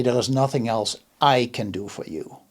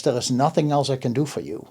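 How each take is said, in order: First: There is nothing else I can do for you, with the weight on I; quieter, stress moved to I. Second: There is nothing else I can do for you, with the weight on nothing; stress on nothing. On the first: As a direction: lean on I so that others might help. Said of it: "He or she should say". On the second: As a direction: lean on nothing, a flat final verdict. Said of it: "I think the emphasis in the sentence is wrong". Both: Shown as a demonstration.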